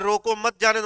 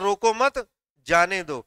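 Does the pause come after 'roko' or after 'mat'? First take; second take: after roko; after mat. First: There is a pause after the first word. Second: There is a pause after the second word. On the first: Stop it; do not let it go. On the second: Do not stop it; let it go.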